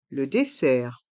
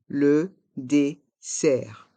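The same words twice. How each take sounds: First: Said in the usual way. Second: "Le dessert" in slow, separate syllables; slow model pronunciation. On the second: Shown as a demonstration. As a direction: pause after each syllable of "Le dessert". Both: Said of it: "Prononçons".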